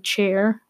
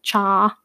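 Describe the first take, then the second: First: The final r sound is clearly pronounced. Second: The final r sound is dropped. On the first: "I couldn't even say chair" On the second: "that was like cha"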